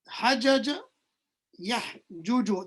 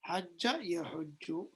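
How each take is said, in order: First: The two j sounds are said separately. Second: The two j sounds merge into one doubled j. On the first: It shows the underlying original form. The speaker calls it wrong. "This is the original breakdown, but this is we don't pronounce it like that" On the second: It is the form actually used in speech. The speaker calls it right. "We pronounce it with the shadda"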